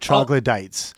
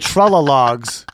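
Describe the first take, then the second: First: The word is said as troglodytes. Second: The word is said as trolla-logs. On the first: This is the usual pronunciation. The speaker calls it right. "instead of" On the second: This is a mispronunciation heard in the film. The speaker calls it wrong. "was a thing he was just saying instead of"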